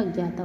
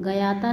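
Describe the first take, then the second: First: Said in the usual way. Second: गयाता split as "ga-yata"; mispronounced. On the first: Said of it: "होता है". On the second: Shown as a demonstration. Teacher showing students an error, गयाता with extra vowel. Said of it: "नहीं होता".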